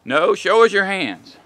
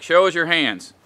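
First: Higher, slow, insistent cop command; repeated cop command. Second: A firm cop order, lightly voiced; imitating cop command. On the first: Retold or imitated. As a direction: say "show us your hands" again, louder and slower, losing patience. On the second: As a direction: bark it once, just a light cop command. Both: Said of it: "where cops are like".

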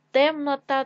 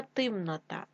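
First: Said in the usual way. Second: Темнота said as тимнота; short i after Т in темнота; и in first syllable. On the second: Shown as a demonstration. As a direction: make темнота start with ти. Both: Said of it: "від слова темно".

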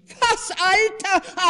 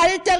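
First: High, loud, slow affronted cry; indignant outcry. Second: High, loud repeated word; indignant echo. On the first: The wife is offended at her husband's remark, indignant cry. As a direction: bristle at the word. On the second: The offended wife throws the word back, indignant. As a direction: fling the word back at him. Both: A narrator's reading. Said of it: "rief die Frau".

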